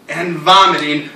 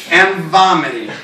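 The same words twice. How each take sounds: The two takes are said the same way.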